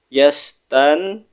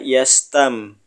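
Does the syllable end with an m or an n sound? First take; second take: n; m. First: The syllable ends with an n sound. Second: The syllable ends with an m sound.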